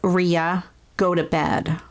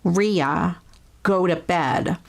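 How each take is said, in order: No difference in how they are said.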